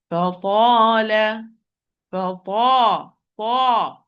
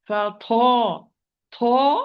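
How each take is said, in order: First: Ta held long and heavy, no flow of breath; fa-ta with the breath imprisoned on Ta; correct unbreathed Ta. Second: Ta whispered with a flow of breath; wrong breathy Ta. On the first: Quran teacher showing how to say the word properly, correct Ta. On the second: Quran teacher showing the common mistake, wrongly aspirated Ta. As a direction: puff of air let out on the Ta. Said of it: "Wrongly, it's going to be". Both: Shown as a demonstration.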